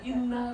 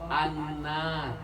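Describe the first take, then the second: First: The word begins with an i vowel. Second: The word begins with an a vowel. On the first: The speaker calls it wrong. "Kalau tanpa ilmu ini kita bisa aja bisa innar" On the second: The speaker calls it right. "Contoh an-nar"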